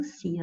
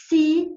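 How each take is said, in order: First: Said in the usual way. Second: "se" punched high and loud; the teacher's loud, high "se" for the condition; stress on se. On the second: Shown as a demonstration. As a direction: hit the word "se" hard, higher and louder. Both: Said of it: "ó, já vem até o".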